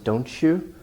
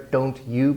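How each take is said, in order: First: The t and y blend into one sound. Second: The t and y are said separately.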